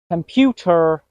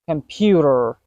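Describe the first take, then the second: First: The middle T is a clear T sound. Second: The middle T is a quick soft D sound. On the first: The speaker calls it wrong. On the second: The speaker calls it right.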